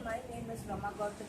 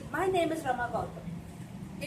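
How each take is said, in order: First: It is said flatly and unclearly, without energy. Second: It is said clearly with energy and pride. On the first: Listeners cannot catch the name. The speaker calls it wrong. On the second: The speaker is proud of their name. The speaker calls it right.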